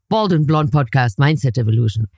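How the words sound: The voice sounds grumpy and downbeat. The speaker is in a bad mood. "When I'm in a bad mood"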